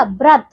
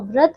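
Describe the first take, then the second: First: व्रत said brat; b sound. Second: व्रत said vrat; v sound. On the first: Teacher showing wrong व्रत with b onset. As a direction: start व्रत with a b. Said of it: "व्रत नहीं होता". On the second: Teacher correcting pupils, व्रत with v onset. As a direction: start व्रत with a v. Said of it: "व्रत होता है". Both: Shown as a demonstration.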